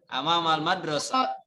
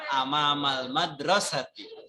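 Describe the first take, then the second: First: The final word ends without its vowel ending. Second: The final word ends with a full vowel ending. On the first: "kalau nggak mau dibaca lengkap cukup amamal madrasah" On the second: "kalau seandainya mau dibaca lengkap"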